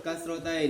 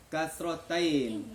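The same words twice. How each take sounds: First: Said in the usual way. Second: Slow, uncertain Kasrotain, dragged out; almost right. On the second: Real, not acted. Child tries the new mark Kasrotain, slow and unsure. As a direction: stretch Kasrotain slowly, not quite right. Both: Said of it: "Ah, hampir betul".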